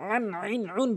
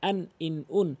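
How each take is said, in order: First: The middle syllable has an 'ai' diphthong. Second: The middle syllable has a plain 'i' vowel. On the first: The speaker calls it wrong. "আন আইন উন বলতে পারবেন না" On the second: The speaker calls it right. "এটা বলবেন আন ইন উন"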